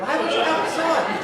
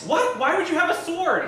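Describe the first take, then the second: First: Loud shocked shout; shouted echo. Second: High startled question; shocked. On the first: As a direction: yell it back in alarm. Echoes the shocked question louder. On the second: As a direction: squeal it in disbelief. Shocked at sudden sword. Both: Acted.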